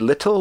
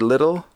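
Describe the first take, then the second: First: The middle sound is a crisp t. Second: The middle sound is softened to a d.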